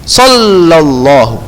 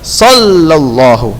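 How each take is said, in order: No difference in how they are said.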